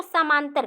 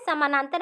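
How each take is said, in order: First: समांतर for samanantar, middle syllable swallowed; slurred pronunciation. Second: Said in the usual way. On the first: Shown as a demonstration. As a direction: run it together as समांतर, dropping "na". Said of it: "अस्पष्ट उच्चारण कर रहा है". (समानांतर का "ना" खाकर "समांतर" बोलें) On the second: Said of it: "इसको समांतर कह देगा".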